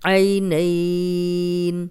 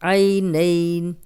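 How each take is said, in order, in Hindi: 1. स्वर को चार हरकत तक खींचा जाता है। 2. स्वर को दो हरकत तक खींचा जाता है। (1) "चार हरकत" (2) "दो हरकत"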